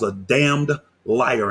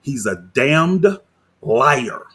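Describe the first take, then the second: First: Damned slow and punched; stress on damned. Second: Damned drawn out, liar falling; slow, deliberate damned then liar; repeated for emphasis. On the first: Calling the pastor a liar to viewers, damned stressed slowly. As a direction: lean hard on damned, slow. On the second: Repeating the insult word by word to his audience, slowly. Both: Real, not acted. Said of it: "I mean that exactly how I said it".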